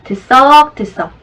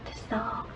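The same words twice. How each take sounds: First: It is said fairly loudly. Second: It is said very quietly.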